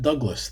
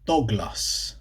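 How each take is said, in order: First: It is said with a usual English pronunciation. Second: It is said the Swedish way, like dog-glass. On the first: "Swedes don't pronounce it Douglas" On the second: "they pronounce it Douglas"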